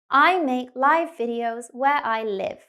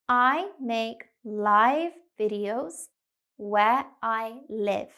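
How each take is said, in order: First: The sentence is spoken faster. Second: The sentence is spoken slowly. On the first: "a little bit faster now" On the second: "We'll go slowly to start"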